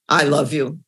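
The words sound flat and unconvincing. The feeling is not really meant. The speaker calls it wrong.

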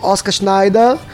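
The name is pronounced the German way. "mas como eu sou alemão"

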